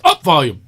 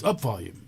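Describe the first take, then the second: First: Loud barked order at the car; shouted command. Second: Said in the usual way. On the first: Retold or imitated. Friend shouting a command at his car, loud. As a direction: yell it into the little hole. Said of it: "And he goes". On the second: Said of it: "he goes".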